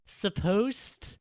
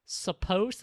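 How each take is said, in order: First: "supposed" stretched out very high in giant air quotes; slow, exaggerated high stress on "supposed"; huge scare quotes. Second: "supposed" lifted high in air quotes; audible scare quotes. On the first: Host mocking rules for women's speech, giant scare quotes on "supposed". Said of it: "I cannot use quote, big quotes big enough". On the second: Host doubting how Japanese women should talk, scare quotes on "supposed". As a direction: stress "supposed" with a pointed high pitch. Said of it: "quote unquote". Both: Shown as a demonstration.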